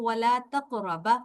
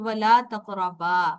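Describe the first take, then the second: First: The final vowel is cut short. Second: The final vowel is held long. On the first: The speaker calls it wrong. "आपने अलिफ को ... लंबा नहीं किया" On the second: The speaker calls it right. "इसके आखिर में अलिफ के साथ अ, बा के साथ अलिफ है"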